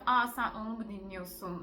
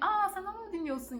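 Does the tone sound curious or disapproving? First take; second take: disapproving; curious. First: The tone sounds disapproving and judgmental. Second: The tone sounds curious and genuinely interested. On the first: Listening to that music is looked down on. The speaker calls it wrong. "altındaki tonlama sizi rahatsız edebiliyor" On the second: The asker wants to hear more about it. The speaker calls it right. "şöyle değil"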